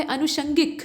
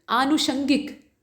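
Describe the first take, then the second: First: अनुषंगिक starting with a short अ; short a form. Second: आनुषंगिक slowly, with a long आ at the start; slow correct form. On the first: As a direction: say अनुषंगिक with a quick short first vowel. (छोटे अ से: अनुषंगिक) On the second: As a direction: stretch out आनुषंगिक, leaning on the long आ. (धीरे, लंबे आ के साथ: आनुषंगिक) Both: Shown as a demonstration. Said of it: "वो सही है".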